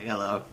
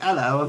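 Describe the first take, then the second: First: Bad British accent. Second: A cheerful British "Hello" with the voice lifted, a bit louder; British greeting. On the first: A tourist attempting the British greeting back, bad British accent. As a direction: try a British "Hello" and miss it. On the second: Retold or imitated. A tourist imitating locals greeting him, British accent. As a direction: mimic a Londoner saying "Hello". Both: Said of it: "I have a bad British accent".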